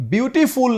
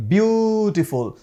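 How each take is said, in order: First: Beautiful rushed the common wrong way; Beautiful said as the example not to copy; wrong pronunciation demo. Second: Beautiful said slowly and softly as bjutiful; slow, careful model of beautiful; correct pronunciation. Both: Shown as a demonstration. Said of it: "नहीं कहेंगे".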